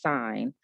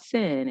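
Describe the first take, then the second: First: The vowel is long, rhyming with fine. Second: The vowel is short, rhyming with fin. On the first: The speaker calls it right. "it's sine" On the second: The speaker calls it wrong. "a lot of students say is sin, but it's not sin"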